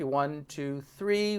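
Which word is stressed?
three. The stress is on three.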